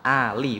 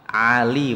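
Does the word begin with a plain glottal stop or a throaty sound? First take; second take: glottal stop; throaty. First: It begins with a plain glottal stop. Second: It begins with a throaty pharyngeal sound. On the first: The speaker calls it right. "Ali Imron itu pakai hamzah lam" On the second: The speaker calls it wrong.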